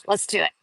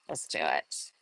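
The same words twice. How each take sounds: First: Said in the usual way. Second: Much lower, softer mock growl; jokey low echo of the line; playful low voice. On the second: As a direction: drop into a goofy deep voice. Repeats phrase in another voice.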